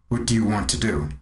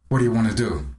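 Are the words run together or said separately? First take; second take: separately; run together. First: Each word is said clearly and separately. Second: The words are reduced and run together. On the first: The speaker calls it wrong. "You probably will not ask me" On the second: The speaker calls it right. "It'll probably sound more like"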